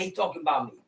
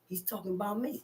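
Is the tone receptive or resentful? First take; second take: resentful; receptive. First: It sounds offended and resentful. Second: It sounds open and accepting. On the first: The listener feels attacked by the teaching. The speaker calls it wrong. "Don't sit in the teaching and say" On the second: The listener takes the teaching as a mirror. The speaker calls it right. "sit in the teaching and say"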